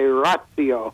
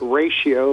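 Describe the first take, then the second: First: It is said in a classical Latin way. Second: It is said like the English math word. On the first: "those who know Latin really well sometimes say ratio" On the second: "pronounce it ratio like... we would in mathematics"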